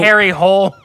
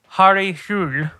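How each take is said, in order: First: The surname sounds like 'hole'. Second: The surname sounds like 'hool'. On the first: The speaker calls it wrong. "It's not so Harry Hole" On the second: The speaker calls it right. "so it's Harry Hul"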